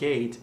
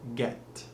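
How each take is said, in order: First: Said with a plain English vowel. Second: Said with a French-accented vowel closer to E. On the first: The speaker calls it wrong. "So it's not gate" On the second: The speaker calls it right. "it's get"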